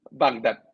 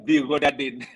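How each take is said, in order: First: The word has two syllables without added vowels. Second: The word has four syllables with added vowels. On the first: The word is read as the city name. The speaker calls it right. "Capital city of Iraq ini kan Baghdad" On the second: The reader did not recognize the word as a city name. The speaker calls it wrong. "Dibacanya bigodadin"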